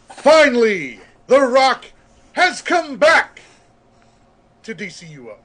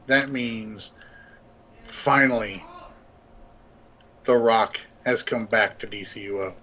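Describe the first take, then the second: First: It is said in a dramatic announcer voice. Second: It is said in a plain speaking voice.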